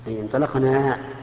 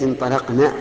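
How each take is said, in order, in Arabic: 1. الحركة الأخيرة طويلة. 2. الحركة الأخيرة قصيرة.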